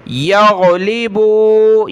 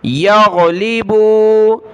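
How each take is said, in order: First: यगलिबू with a gargled ghain; throaty ghain. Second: यगलिबू with a gargled ghain, slow; throaty ghain. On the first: Teacher models throat ghain, slow. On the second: Teacher shows the throat ghain again. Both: Shown as a demonstration. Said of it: "गैन पढ़ना है गले से निकाल कर।".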